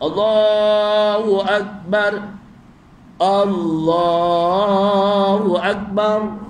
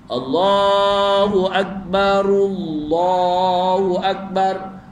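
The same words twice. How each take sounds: First: There is a stop and a breath between phrases. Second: The phrases run together, linked by an 'u' vowel. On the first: "Kalau wakafkan ... kena wakaf, maknanya ambil nafas" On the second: "Kalau wasal ... bidammah"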